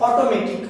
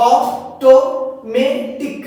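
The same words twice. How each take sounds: First: Said in the usual way. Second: "automatic" in four slow, loud beats; split into syllables. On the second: Shown as a demonstration. Teacher showing four syllables, "automatic" split slowly and loudly. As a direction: pause between অ, টো, মে, টিক, each punched. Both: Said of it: "এর মধ্যে চারটে আছে".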